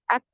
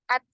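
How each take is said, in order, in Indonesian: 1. Bunyi t terakhir ditahan dulu, lalu dilepas dengan napas. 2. Bunyi t terakhir dilepas dengan suara. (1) "harus tertahan dulu suaranya. At baru dialirkan nafas" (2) "ini kesalahan yang sering terjadi... yang ngalir itu adalah aliran suara, bukan nafas"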